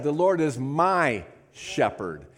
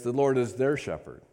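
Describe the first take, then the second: First: Slow, weighty "my" in "The Lord is my shepherd"; slow personal declaration; stress on my. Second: "their" picked out as the wrong word; contrasting "their"; stress on their. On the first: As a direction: linger on "my", make it personal. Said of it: "He personalized it". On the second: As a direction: read it with "their" in place of "my". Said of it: "What he doesn't say is". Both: Shown as a demonstration.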